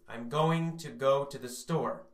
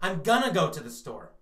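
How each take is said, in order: First: Going to is said as two full words. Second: Going to is reduced to one word, gonna. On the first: "in school you learned going to" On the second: "What we say is gonna"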